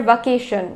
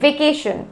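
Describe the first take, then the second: First: Vacation as va-KAY-shun; wrong pronunciation. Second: Vacation as vay-KAY-shun; correct pronunciation. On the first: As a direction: start vacation with an uh vowel. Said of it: "not summer vacation". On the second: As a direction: start vacation with an e sound. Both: Shown as a demonstration.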